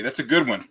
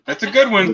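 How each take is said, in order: First: Said in the usual way. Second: Much higher, louder, sarcastic praise; mock praise. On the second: Host teases Pork Chop's groan-worthy joke with sarcastic, much higher, louder praise. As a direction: oversell the compliment as a joke.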